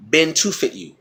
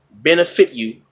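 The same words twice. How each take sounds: First: "been to fit" with a clear "too" in the middle; accentuated "to" sound. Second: "benefit" with a short, light "eh" in the middle; unstressed middle syllable. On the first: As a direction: bend benefit into three words, "been to fit". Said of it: "accentuate a sound a little more". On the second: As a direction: say "benefit" as the ordinary word. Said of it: "have to accentuate a sound". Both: Shown as a demonstration.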